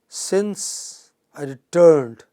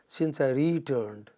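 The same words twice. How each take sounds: First: The stress is on the second syllable. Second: The stress is on the first syllable. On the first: The speaker calls it right. "stress on the second syllable" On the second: The speaker calls it wrong. "that will be incorrect"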